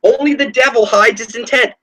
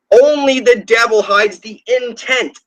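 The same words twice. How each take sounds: First: Said in the usual way. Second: "Only the devil" drawn out slowly, each word weighed; slow, weighty repeat. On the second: Shown as a demonstration. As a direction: lean on "Only" and slow right down.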